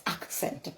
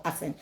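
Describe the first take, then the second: First: "accent" said as "ak-sent"; "accent" corrected to "ak-sent"; accent with K sounded. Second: "accent" said as "assent"; accent with silent K. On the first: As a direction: sound the K clearly in "accent", softly spoken. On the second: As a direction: say "accent" with no K sound, "ass-ent". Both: Shown as a demonstration. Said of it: "So let me correct myself here".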